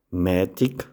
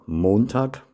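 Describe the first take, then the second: First: It is said with Sathmar Swabian dialect pronunciation. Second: It is said with Standard German pronunciation. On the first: "dann anschließend im Sattmar-Schwäbischen" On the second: "zuerst im Hochdeutschen"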